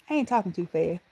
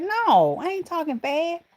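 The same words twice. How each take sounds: First: Said in the usual way. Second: High-pitched mock denial; retold protest. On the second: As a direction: protest it high, as if answering your son. Acted retort to her son.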